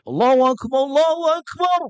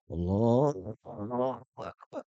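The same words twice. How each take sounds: First: It is said in a loud, strong voice. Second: It is said in a small, weak voice.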